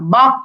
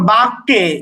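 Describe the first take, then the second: First: The final echo vowel sounds like 'a'. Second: The final echo vowel sounds like 'e'. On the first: The speaker calls it right. "এইরকম" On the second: The speaker calls it wrong. "এরকম না"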